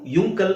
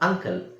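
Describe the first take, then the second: First: The word begins with a 'yu' sound. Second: The word begins with an 'uh' sound. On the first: The speaker calls it wrong. "ಯುಂಕಲ್ ಅಂತ ಹೇಳಲ್ಲ" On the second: The speaker calls it right. "ಇಲ್ಲಿ ಅ ಅಂತ ಹೇಳ್ತಾ ಇದೀವಿ"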